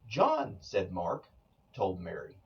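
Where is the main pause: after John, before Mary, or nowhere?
after John. There are pauses after John and after Mark. Mark is saying that John told Mary. "Mark is doing the speaking and he's saying that John told Mary"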